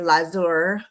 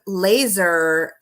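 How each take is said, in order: First: It is said with the Hungarian vowels, lazur. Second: It sounds like the English word laser.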